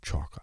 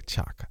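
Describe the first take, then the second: First: Chaka said as SHOR-kuh with a soft sh and an r-colored first vowel. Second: Chaka said CHAH-kuh with a hard ch; his own Chaka. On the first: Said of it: "I don't even say it like that". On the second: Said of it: "I say Chaka". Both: Shown as a demonstration.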